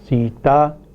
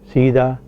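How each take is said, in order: First: The middle consonant is a voiceless t. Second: The middle consonant is a voiced d. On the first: "voiceless consonants such as pa, ta, ka" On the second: "are pronounced as voiced consonants between two vowels"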